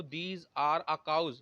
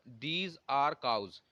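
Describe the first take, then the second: First: "These are a cows" read out word by word; wrong example, dictated slowly. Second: "These are cows" spelled out word by word; correct example, dictated slowly. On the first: Teacher shows students the wrong sentence, very slow. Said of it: "ये आपका गलत हो जाएगा". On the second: Teacher dictates correct sentence to students, very slow. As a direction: read the right sentence very slowly. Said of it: "इसलिए कोई article नहीं आया". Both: Shown as a demonstration.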